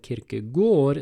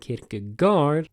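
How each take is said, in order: First: The vowel is said as an Å sound. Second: The vowel is said as a plain a. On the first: The speaker calls it right. "why this philosopher is named Søren Kierkegaard" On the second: The speaker calls it wrong.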